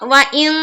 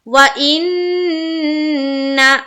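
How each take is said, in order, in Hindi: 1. नासिका वाली n की आवाज़ छिपी हुई है और छोटी करके काट दी जाती है। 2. नासिका वाली n की आवाज़ नाक में रोकी जाती है। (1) "ये हो गया छुपाना" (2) "सिर्फ और सिर्फ रोकना है"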